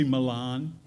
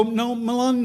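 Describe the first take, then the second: First: "Milan" said the Italian way, stress on the end, "mi-LAHN"; "Milan" with a soft Italian "-lahn" ending, said lightly; fancy Milan. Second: "Milan" stretched, higher, stressed on the end, "muh-LAHN"; "No, Milan" with the drawn-out "-lahn", pushed firmly; insistent Milan. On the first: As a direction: put on the posh city "Milan", not the small town one. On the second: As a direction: press the "Milan" ending long to set it apart from Italy. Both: Retold or imitated. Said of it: "change the pronunciation of the name of the town".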